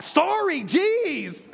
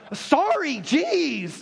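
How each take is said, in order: First: Sulky, higher sorry then a dropped jeez; bratty kid sorry. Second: Put-on grudging kid sorry. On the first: Retold or imitated. Pastor mimicking a child's apology to a parent, sulky and dismissive. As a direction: toss off a sorry you don't mean, like a kid. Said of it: "your kids do that one on you". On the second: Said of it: "this is a kid one".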